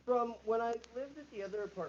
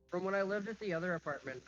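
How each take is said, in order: First: Muffled from another room. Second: Muffled, softer, echoing bathroom sound; from another room. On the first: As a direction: voice muffled, far from the mic. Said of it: "You're muffled again". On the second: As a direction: speak from the bathroom, off mic. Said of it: "Yeah, I'm in the bathroom". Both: Real, not acted.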